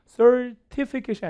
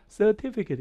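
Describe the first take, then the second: First: "certificate" with R sounded in the first syllable; American R. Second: "certificate" with no R in the first syllable; British, R dropped. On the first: Teacher contrasting accents, R-coloured American "certificate". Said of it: "알 발음이 받침에 들어가면". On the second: Teacher showing British style, R-less "certificate". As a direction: say "certificate" as "suh-TI-fi-ket". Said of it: "이게 영국식이 되면". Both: Shown as a demonstration.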